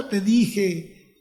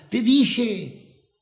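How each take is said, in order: First: Chuckling through it; a gloating laugh on the words; relieved laughing I told you so. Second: Said in the usual way. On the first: Retold or imitated. Told you so, doctors' news.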